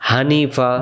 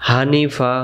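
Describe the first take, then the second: Both takes have the same delivery.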